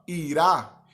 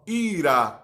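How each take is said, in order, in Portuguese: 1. A sílaba tônica é a segunda. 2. A sílaba tônica é a primeira. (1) "Em vez da sílaba tônica ser o i, passou a ser o urá" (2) "a sílaba tônica, é o i"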